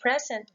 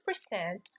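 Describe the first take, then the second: First: The stress is on the first syllable. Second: The stress is on the second syllable. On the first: It is a noun. "While noun and adjective, they're both the same. Falls to the first syllable" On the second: It is a verb. "What is the rule of stress for verb? Again, it falls into the second syllable"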